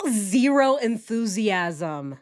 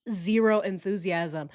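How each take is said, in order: First: Slow, drawn-out flat delivery; flat, no enthusiasm. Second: Said in the usual way. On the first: Shown as a demonstration. Reacting to the husband, deadpan and slow. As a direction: say it with zero interest. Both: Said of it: "He has zero enthusiasm in his voice".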